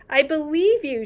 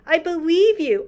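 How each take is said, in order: First: Softly. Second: Cried out. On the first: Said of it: "she said softly". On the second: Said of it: "Sophie cried". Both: Acted.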